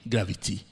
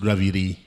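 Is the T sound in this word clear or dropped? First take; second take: clear; dropped. First: The T sound in the middle is clear. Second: The T sound in the middle is dropped. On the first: The speaker calls it right. "There is a T there" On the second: The speaker calls it wrong. "not gravity"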